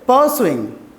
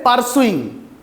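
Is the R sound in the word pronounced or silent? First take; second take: silent; pronounced. First: The R sound is silent. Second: The R sound is clearly pronounced. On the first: The speaker calls it right. "we try to make it invisible" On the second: The speaker calls it wrong. "We don't say pursuing"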